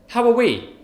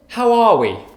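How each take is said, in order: First: The word 'are' is said without stress. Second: The word 'are' carries strong stress. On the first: It asks how a group including the speaker is. "If you don't stress the R" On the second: It is a greeting asking how you are. "you actually have to stress the R"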